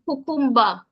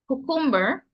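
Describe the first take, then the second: First: It is said with a Jamaican pronunciation. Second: It is said with a standard English pronunciation. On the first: "In Jamaican" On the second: "in English"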